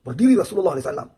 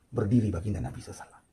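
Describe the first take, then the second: First: Raised, much faster and higher, pressing it home; preacher rising loud and fast on the repeat; emphatic louder retelling. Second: Said in the usual way. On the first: A narrator's reading. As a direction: hammer the repeat louder and quicker. Same line repeated with force.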